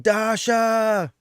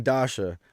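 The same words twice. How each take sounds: First: Imitated scream, high and drawn out; high-pitched wrestler's yell, stretched out; Roderick Strong. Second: Said in the usual way. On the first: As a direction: holler the name in a long, high mock scream. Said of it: "Roderick Strong screaming". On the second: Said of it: "when he was yelling".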